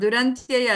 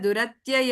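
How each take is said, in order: First: An n sound comes before the t. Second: No n sound comes before the t. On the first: The speaker calls it wrong. "ದುರಂತ್ಯಯ ಅಲ್ಲ" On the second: The speaker calls it right.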